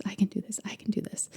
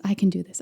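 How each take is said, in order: First: Mantra sinking into a breathy whisper; fading to a whisper. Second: Said in the usual way. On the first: Retold or imitated. Mom repeating her son's mantra, fading to a whisper. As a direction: let each repeat fall quieter until it's only breath.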